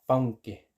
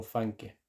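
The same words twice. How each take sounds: First: "fanke" con diptongo au: "faunke"; pronunciación recomendada. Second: "fanke" con a simple, sin diptongo; pronunciación a evitar. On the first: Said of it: "Vale, así como". ("fanke" pronunciado con au ante nk) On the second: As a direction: di "fanke" con una a sencilla. ("fanke" con a pura, no au) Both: Shown as a demonstration.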